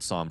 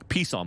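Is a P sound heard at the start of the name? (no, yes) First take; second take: no; yes. First: The name starts with no P sound. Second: The name starts with an audible P sound. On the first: "not Psalm from Energy"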